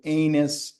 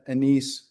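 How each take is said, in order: First: The word is said like 'anus'. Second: The word is said like 'anise'.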